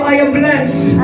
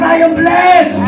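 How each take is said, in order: First: It is said at normal volume. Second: It is said more loudly. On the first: "sabay tayo" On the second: "Yung mas malakas"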